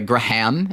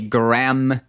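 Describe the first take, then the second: First: The name is said with an audible H. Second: The name is said with a silent H.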